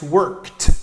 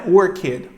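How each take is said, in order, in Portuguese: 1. O final é pronunciado como o som de t simples. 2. O final não é pronunciado como um t simples. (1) "a pronúncia apropriada para o ed é a pronúncia do som T" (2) "não é worked"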